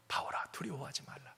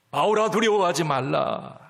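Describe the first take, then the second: First: 바울아 두려워하지 말라 breathed softly in a whisper; God whispering comfort to Paul. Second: 바울아 called out with force, 두려워하지 말라 firm; God calling Paul by name, firm and louder; louder God's voice. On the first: Whispered repeat of God's words. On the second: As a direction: proclaim 바울아 boldly as God speaking. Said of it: "하나님 말씀하세요". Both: Acted.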